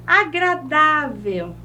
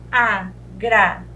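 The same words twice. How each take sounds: First: Said in the usual way. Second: "agradável" lower, split a, gra, dá, vel with pauses; syllable by syllable. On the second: Shown as a demonstration. Teacher showing the tonic syllable, "agradável" in separate beats. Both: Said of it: "a penúltima".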